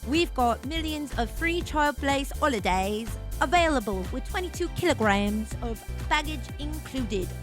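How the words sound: It is said in a put-on British accent. The speaker calls it right.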